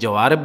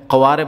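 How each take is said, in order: First: The word begins with a j sound. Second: The word begins with a deep q sound. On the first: This is the colloquial dialect form. "दूसरे बोलचाल वाले वो जवारिब बोलते हैं" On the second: This is the standard literary form. "क़ारिब फुसहा में भी कहते हैं, क़वारिब उसकी जमा है"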